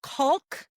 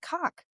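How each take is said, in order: First: "Caulk" said as "coalk", questioning; puzzled echo, "Caulk" with long O and L. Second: "Caulk" said as "kahk", L silent; caulk without L. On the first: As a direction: sound the L in "Caulk", rising. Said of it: "I don't say it like that". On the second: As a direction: open AH vowel in "Caulk", no L. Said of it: "Say that word again". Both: Retold or imitated.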